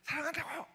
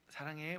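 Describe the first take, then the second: First: It is shouted loudly and roughly. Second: It is said in a low, calm voice.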